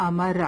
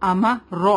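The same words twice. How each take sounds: First: امر with a thin light ra, the wrong way; امر read with a light ra by mistake. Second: امر with a full heavy ra; امر read with a heavy ra. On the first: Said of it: "we will not read like that". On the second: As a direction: say امر with the ra thick and full-mouthed. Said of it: "را کو heavy پڑھیں گے". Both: Shown as a demonstration.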